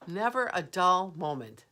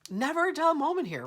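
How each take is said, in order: First: Said in the usual way. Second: High, loud bright exclamation; amused exclamation, pitched up and louder; excited quip. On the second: Real, not acted. Laughing off the vent scare.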